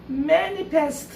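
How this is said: The word is said crisply in a girlish voice. "아가씨 흉내 냈어요. manifest 이렇게 단어를 더 분명하게 발음했어요"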